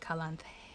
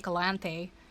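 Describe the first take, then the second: First: The word is whispered. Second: The word is spoken in a normal voice. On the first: "you can whisper it and say" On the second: "or you can just say"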